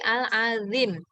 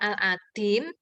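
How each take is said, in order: First: The middle consonant is a thin z-like sound. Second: The middle consonant is a plain d sound. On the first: The speaker calls it right. "tapi Al-Azim. Karena itu zot. Zot itu tipis ya" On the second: The speaker calls it wrong. "bukan Al-Adim"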